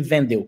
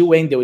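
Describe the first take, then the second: First: The name begins with a V sound. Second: The name begins with a W sound. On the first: The speaker calls it wrong. "pronunciar o W como V" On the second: The speaker calls it right. "ele não me chamava de Wendel"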